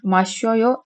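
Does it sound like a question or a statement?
statement. It has flat statement intonation. I drink. "içiyorum"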